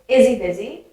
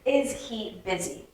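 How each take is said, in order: First: The words are merged into one stream. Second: Each word is said clearly and separately. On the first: "if I merge it together" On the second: "So I said that very clearly"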